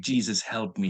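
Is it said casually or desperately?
desperately. It is said with desperate, heartfelt intensity.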